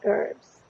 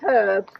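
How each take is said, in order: First: It is said in an American accent. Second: It is said in a British accent.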